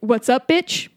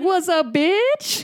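First: It is said at a normal, quick pace. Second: It is said slowly and drawn out.

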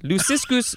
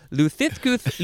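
First: The s sounds are clear hissing sounds. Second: The s sounds are lisped like th.

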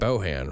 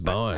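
First: The name is said with two syllables. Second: The name is said with one syllable. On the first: "It looks like it should be two syllables" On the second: "Or just Bon?"

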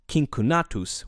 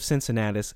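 First: The C sounds are hard, like K. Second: The C sounds are soft, like S. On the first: This is the original Latin pronunciation. "In Latin, his name would have been pronounced Cincunatus with hard C's" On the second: This is the familiar English pronunciation. "anglicized form with soft C's, I'm going to stick with that pronunciation"

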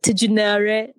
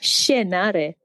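First: The word begins with a separate t sound. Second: The word begins with a soft sh sound. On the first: The speaker calls it wrong. "Isn't it like Tijunare? No" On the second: The speaker calls it right. "It's Shienare"

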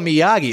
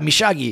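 First: The Y is said as a plain Y. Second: The Y is said like a zh sound.

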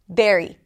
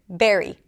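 First: The first consonant is an abrupt stop. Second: The first consonant is an abrupt stop.

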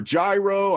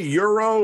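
First: The word begins with a J sound. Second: The word begins with a Y sound. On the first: "I know a lot of people say it differently" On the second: "Do you say euro or gyro?"

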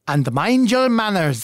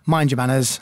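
First: It is said in a put-on Scottish accent. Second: It is said in his own plain accent.

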